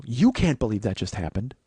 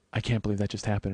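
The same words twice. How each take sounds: First: Incredulous echo with weight on You; stress on You. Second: Said in the usual way. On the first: Retold or imitated. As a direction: lean hard on You, echoing back. Throws her words back at her.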